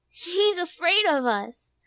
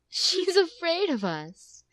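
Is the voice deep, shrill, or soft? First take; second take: shrill; soft. First: It is said in a small, shrill voice. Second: It is said in a soft motherly voice.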